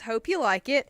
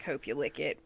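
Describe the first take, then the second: First: The third syllable rhymes with 'bike'. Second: The third syllable rhymes with 'sick'. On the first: The speaker calls it right. "But no, it's Hope You Like It" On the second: The speaker calls it wrong. "it looks like Hope You Lick It"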